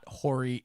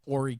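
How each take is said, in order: First: The opening H sound is pronounced. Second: The opening H sound is silent. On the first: The speaker calls it wrong. "It's it's not Horry" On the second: The speaker calls it right. "The H is silent"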